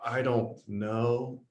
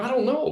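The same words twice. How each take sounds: First: It is said in an unsure, hesitant way. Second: It is said in a confident, upbeat way.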